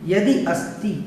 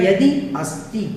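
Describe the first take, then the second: First: The two words are said separately, unjoined. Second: The same.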